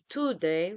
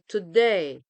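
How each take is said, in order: First: The stress is on the first syllable. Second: The stress is on the second syllable. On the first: The speaker calls it wrong. "We don't say today" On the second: The speaker calls it right. "we say today. So the stress ... is the second syllable"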